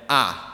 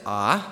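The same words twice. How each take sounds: First: The pitch falls downward. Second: The pitch rises upward. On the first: "the fourth tone just goes down" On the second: "The second tone rises"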